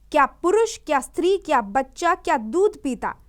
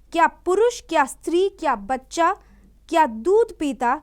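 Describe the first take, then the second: Both takes have the same delivery.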